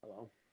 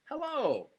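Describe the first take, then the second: First: It is said with murderous menace. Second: It is said in a warm, welcoming way.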